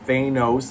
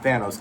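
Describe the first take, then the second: First: The name sounds close to the word 'anus'. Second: The name does not sound like 'anus'. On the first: This is the original creator's pronunciation. The speaker calls it right. "it's close to saying anus" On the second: This is the pronunciation the films chose. The speaker calls it wrong. "not Thanos"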